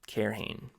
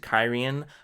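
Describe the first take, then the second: First: The name ends with a 'hane' sound. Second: The name ends with an 'ee-en' sound. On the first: The speaker calls it wrong. "I was calling it Cairhane" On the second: The speaker calls it right. "was pronouncing it correctly"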